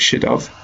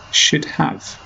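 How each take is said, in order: First: The second word sounds like of. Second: The second word sounds like have. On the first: The speaker calls it wrong. "sounds a bit like" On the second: The speaker calls it right. "actually it should be"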